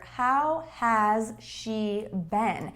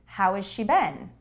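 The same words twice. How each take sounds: First: Each word is said clearly and separately. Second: The words run together with sounds linked. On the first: "when I ask this question very clearly" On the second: "when I link the sounds together"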